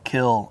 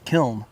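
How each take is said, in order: First: The word ends in an l, n silent. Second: The word ends with a sounded n. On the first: This is the original pronunciation. The speaker calls it right. "I'm using the word kill" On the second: This comes from reading the spelling. The speaker calls it wrong. "people would read it as kiln"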